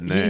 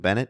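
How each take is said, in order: First: The name is said the French way. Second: The name is said the plain English way. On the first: The speaker calls it right. "It is, uh, as he said" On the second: The speaker calls it wrong. "we've also been mispronouncing Bennett"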